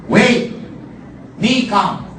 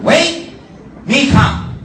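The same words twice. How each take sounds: First: Much higher and louder, broken English; chief's broken English, cut short. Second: Even higher, louder broken English. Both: Retold or imitated. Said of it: "Because it's Barong English".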